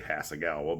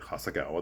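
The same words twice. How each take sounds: First: It is said with an American-style pronunciation. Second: It is said with a Japanese-style pronunciation. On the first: This is how Americans usually say it. "which we say" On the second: This is how people in Japan would say it. "but she's like Hasagawa. That's that's correct"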